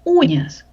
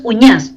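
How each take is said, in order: First: "uñas" stressed on the first syllable, Úñas. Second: "uñas" stressed on the last syllable, uñÁS; wrong stress on ÑAS. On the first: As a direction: put the weight on the opening U of "uñas". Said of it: "Sílaba tónica, U". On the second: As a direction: push the weight onto the end of "uñas". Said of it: "no es uñas". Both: Shown as a demonstration.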